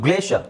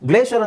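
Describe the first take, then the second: First: It is said in an American accent, 'glay-sher'. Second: The same.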